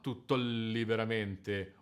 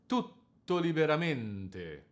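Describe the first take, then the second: First: "tutto liberamente" with the middle syllables tripped over, not sliding to the anchor; slow, stumbling over the unstressed syllables; wrong rhythm. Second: "tutto" anchored on the double T, "liberamente" slides lightly to the double N; slow, the middle syllables glide to the anchor; right rhythm. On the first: Teacher shows the wrong way to phrase Leporello's line. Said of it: "and not". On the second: Teacher shows the correct legato of Leporello's line. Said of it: "The line will sound like this". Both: Shown as a demonstration.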